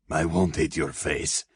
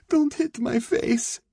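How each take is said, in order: First: Measured answer with a touch of heavy breath; breathing deeply. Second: Very high, slow, frightened plea; drawn-out, terrified begging; pleading. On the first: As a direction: answer evenly, slightly winded. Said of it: "breathing deeply". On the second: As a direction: beg in a high, desperate voice. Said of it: "she pleaded". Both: A narrator's reading.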